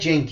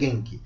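First: The name is pronounced the Portuguese dubbing way. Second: The name is pronounced the Japanese way. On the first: "Na dublagem é Genki" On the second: "Na pronúncia japonesa é Genki"

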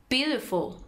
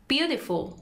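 Both takes have the same delivery.

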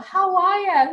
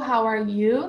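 First: It is said in an Australian accent. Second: It is said in a standard textbook accent.

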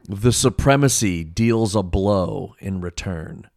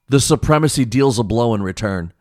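First: It is read a little more slowly. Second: It is read at a normal speed.

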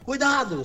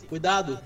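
First: It is shouted loudly. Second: It is said calmly, not shouted.

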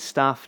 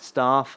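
First: Said in a Birmingham accent. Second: Said in a southern English accent. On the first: "staff is staff" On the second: "not staff"

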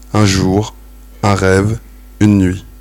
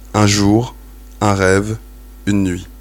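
No difference in how they are said.

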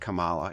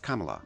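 First: The name does not begin like 'comma'. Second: The name begins like 'comma' plus 'la'. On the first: The speaker calls it wrong. "it's not Kamala" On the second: The speaker calls it right. "pronounced like comma with a la at the end"

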